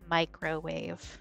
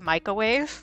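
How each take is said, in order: First: The word is said with careful, clear enunciation. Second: The word is said in a casual, slurred way. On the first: The speaker calls it right. "actually enunciate properly to say it the right way" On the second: The speaker calls it wrong. "if left to my own devices, I say microwave"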